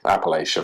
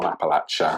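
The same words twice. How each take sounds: First: It is pronounced the way outsiders say it. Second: It is pronounced the way locals say it. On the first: The speaker is from elsewhere. "for everyone else" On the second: The speaker is from the region. "if you're from Appalachia"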